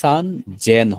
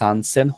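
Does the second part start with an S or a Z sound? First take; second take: Z; S. First: The second part starts with a Z sound. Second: The second part starts with an S sound. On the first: The speaker calls it right. "এখানে হবে যে সান জেন হবে" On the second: The speaker calls it wrong. "এখানে সান সেন হবে না"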